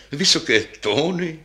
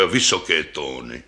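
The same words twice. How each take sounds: First: High, lifted echo; higher-voiced, eager double bass; delighted second bass. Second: Lightly voiced deep, troubled double bass; troubled old bass. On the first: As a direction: seize on the words with relish. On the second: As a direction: confess a weakness in a deep voice. First bass laments its high notes. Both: A narrator's reading.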